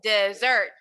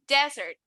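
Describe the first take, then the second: First: The stress is on the last syllable. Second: The stress is on the first syllable. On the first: It means something sweet eaten after a meal. "Aquí el énfasis está en la última" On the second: It means a dry place with no water. "el énfasis está en la primera sílaba"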